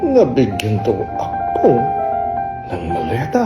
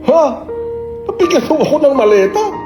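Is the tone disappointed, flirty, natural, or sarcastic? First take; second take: sarcastic; natural. First: It sounds sarcastic. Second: It sounds like a natural, surprised reaction.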